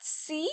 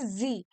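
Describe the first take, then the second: First: The word begins with a voiceless s sound. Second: The word begins with a voiced z sound. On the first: The speaker calls it wrong. "This is not C" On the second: The speaker calls it right. "this is Z. Because we pronounce it that way in German"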